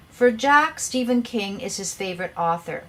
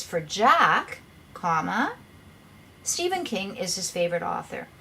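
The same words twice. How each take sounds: First: "For Jack" running straight into "Stephen King"; no break between "Jack" and "Stephen"; run-on without a comma. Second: "For Jack" set apart, comma named aloud; long break before "Stephen King"; pause after "Jack". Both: Shown as a demonstration. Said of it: "What you're trying to say is".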